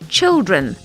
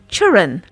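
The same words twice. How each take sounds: First: The word's sound shape is standard. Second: The word's sound shape is altered. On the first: The speaker calls it right. "instead of" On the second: The speaker calls it wrong. "We might get the shape of a word wrong"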